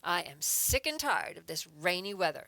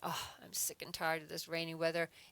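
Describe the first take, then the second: First: It is said with strong, frustrated emotion. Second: It is said calmly, with little emotion.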